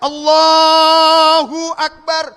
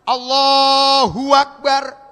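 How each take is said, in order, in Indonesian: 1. Allahu langsung menyambung ke Akbar tanpa bunyi w. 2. Ada bunyi w yang disisipkan di antara Allahu dan Akbar. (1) "Coba kalau ada ilmunya cakep" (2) "antara lafaz Allah dengan Akbar ada wawu"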